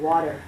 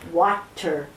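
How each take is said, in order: First: Said in the usual way. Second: "water" with a crisp, hard T; over-enunciated WATER. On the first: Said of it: "instead of water". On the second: Retold or imitated. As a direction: say "water" in two careful syllables with a clear T. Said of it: "Why are you saying water instead of water".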